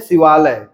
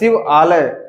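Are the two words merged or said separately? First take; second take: merged; separate. First: Two words are merged into one, vowels fused. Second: Two words are said separately, vowels kept apart. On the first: "जल्दी में बोलने के लिए भाषा में कसावट के लिए बोल दें" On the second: "शिव आलय शिव आलय इस प्रकार से कहें"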